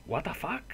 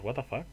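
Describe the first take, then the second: First: What the fuck mucho más agudo, subiendo en fuck; What the fuck en tono alto e incrédulo; sorpresa incrédula. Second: Said in the usual way. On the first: Real, not acted. (What the fuck agudo y sorprendido) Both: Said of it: "repite la frase".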